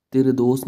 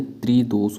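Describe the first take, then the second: First: त्रिदोष with the opening cluster broken, "tiredos"; a vowel splitting t and r in त्रिदोष; wrong form. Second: त्रिदोष slowly as "tree-dos"; drawn-out, clean त्रिदोष; correct form. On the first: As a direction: say त्रिदोष as "ti-re-dos". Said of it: "त्रिदोष नहीं". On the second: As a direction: keep "tr" together in त्रिदोष. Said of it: "होता है". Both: Shown as a demonstration.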